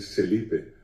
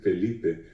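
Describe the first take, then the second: First: The name begins with an S sound. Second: The name begins with an F sound. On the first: The speaker calls it wrong. "dicen Celipe" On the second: The speaker calls it right. "personas que no pueden decir Felipe"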